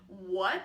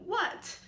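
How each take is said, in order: First: The word is said with Mandarin's third tone. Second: The word is said with Mandarin's fourth tone. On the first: It expresses confusion and asks for more explanation. "So the third tone kind of implies a confusion" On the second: It is more a statement, happy and excited. "And the fourth tone"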